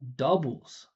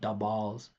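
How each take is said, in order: First: The stress falls on the first syllable. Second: The stress falls on the second syllable. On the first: The speaker calls it right. "instead of doubles" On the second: The speaker calls it wrong. "turned it into a stress stressed syllable"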